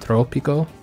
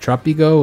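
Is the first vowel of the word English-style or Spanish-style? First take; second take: Spanish; English. First: The first vowel has a Spanish-style O sound. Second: The first vowel has an English-style sound. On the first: The speaker calls it right. "with the O making the O sound" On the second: The speaker calls it wrong. "I didn't pronounce it fully in Spanish"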